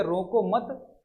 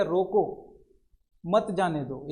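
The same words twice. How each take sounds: First: रोको मत as one phrase, rising on मत; pause after मत. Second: रोको alone and falling, long pause, मत जाने दो; pause after रोको. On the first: Teacher moves the comma to show let him go, रोको मत joined. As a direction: run रोको straight into मत, then stop. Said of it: "यहाँ पे ये लगा दिया". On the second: Teacher explains that he must be stopped, long pause after रोको. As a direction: clear break after रोको, then मत जाने दो in one go. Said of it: "उसको रोक लेना है". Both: Shown as a demonstration.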